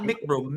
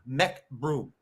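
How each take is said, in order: First: The first syllable sounds like 'mick'. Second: The first syllable sounds like 'meck'. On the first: The speaker calls it wrong. "not Mick Broom" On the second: The speaker calls it right.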